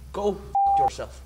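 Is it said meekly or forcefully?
meekly. It is said meekly, without force.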